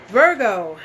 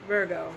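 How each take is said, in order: First: Louder sign call. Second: Soft repeat. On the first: Calling out the next sign. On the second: Repeating the sign softly. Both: Real, not acted.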